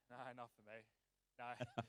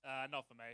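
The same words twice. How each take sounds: First: A quiet, deep, turned-away no; low mumbled refusal. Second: Said in the usual way. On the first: Real, not acted. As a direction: drop to a low, much softer mutter. Declining the beer offer, dropped voice.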